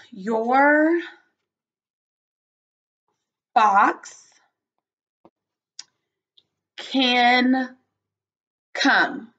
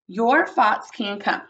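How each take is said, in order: First: Drawn-out words with long pauses between; stretched, spaced-out teacher dictation. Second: Said in the usual way. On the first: Shown as a demonstration. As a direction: say each word separately and slowly for writing. Teacher composes sentence word by word.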